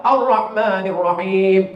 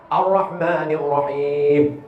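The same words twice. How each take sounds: First: Ar-Rahmanir Rahim chanted slowly; slow recitation. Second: Ar-Rahmanir Rahim with a rolled Ra and a clear breathy Ha; corrected recitation. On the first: Preacher reciting for the congregation, slow. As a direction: draw the verse out. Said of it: "Dua banyak kesalahan". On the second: Preacher modelling correct letters, very slow. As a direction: stretch every letter. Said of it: "Pertama, Ra. Yang kedua, Ha". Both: Shown as a demonstration.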